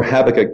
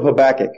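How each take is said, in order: First: Habakkuk with the stress on the first syllable; alternative pronunciation. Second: Habakkuk with the stress on the middle syllable; alternative pronunciation. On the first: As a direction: say Habakkuk as HAB-uh-kuk. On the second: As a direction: say Habakkuk as ha-BAK-uk. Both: Shown as a demonstration. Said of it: "however you want to pronounce it".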